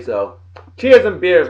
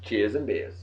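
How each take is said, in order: First: "cheers and beers" stretched slow, a bit louder, landing on "cheers"; drawn-out toast. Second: "Cheers and beers" repeated much softer and lower, trailing off; muttered echo. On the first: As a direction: raise a glass and draw out "cheers and beers". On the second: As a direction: toss it off under your breath as an afterthought. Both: Shown as a demonstration.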